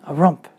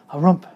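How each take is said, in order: Both takes have the same delivery.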